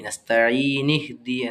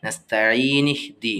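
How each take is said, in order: First: The n is followed by an i vowel. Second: The same.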